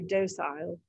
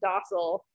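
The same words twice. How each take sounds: First: It is said in a British accent. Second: It is said in an American accent. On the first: "British people say docile" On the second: "Americans say docile"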